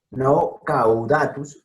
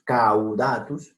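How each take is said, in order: First: Caudatus split as cau-u-da-tus, slowly; teacher showing the wrong way to say caudatus; wrong pronunciation shown slowly. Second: Caudatus said slowly as caw-da-tus; teacher modeling caudatus in three syllables; correct three syllables. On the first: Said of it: "no son cuatro". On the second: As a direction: say caudatus slowly with the au as one sound. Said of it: "sino tres sílabas". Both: Shown as a demonstration.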